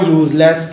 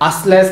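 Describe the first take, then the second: First: The word begins with a 'yoo' sound. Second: The word begins with an 'uh' sound. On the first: The speaker calls it right. "ये भी यू बोला जा रहा है" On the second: The speaker calls it wrong. "असलेस नहीं पढ़ा जा रहा है इसे"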